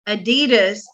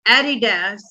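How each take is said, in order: First: The word is said in an American way. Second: The word is said in a British way. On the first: "is the U S A pronunciation" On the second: "is the U K pronunciation"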